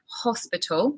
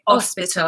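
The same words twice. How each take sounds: First: The word begins with an audible h sound. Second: The word begins with a vowel, no h sound. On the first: The speaker calls it right. "we say the H. H comes from the back" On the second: The speaker calls it wrong. "They'd say hospital. ... So you drop this"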